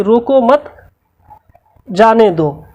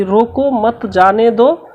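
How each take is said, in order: First: रोको मत, long pause, then जाने दो; comma after मत. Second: Slow रोको, then मत जाने दो as one phrase; comma after रोको. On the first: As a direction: break firmly between मत and जाने दो. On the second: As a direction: set रोको apart, keep मत with जाने दो. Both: Shown as a demonstration. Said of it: "अल्प विराम चिन्ह का प्रयोग अलग-अलग".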